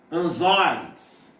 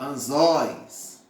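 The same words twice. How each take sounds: First: Anzóis with the ó opened wide and slow; mouth wide open. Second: Anzóis drawn out slowly with a wide-open ó; mouth wide open. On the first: Teacher showing the open diphthong, anzóis said with a wide mouth. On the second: Teacher repeating the example, anzóis slow and open. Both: Shown as a demonstration. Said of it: "você abre bem a boca".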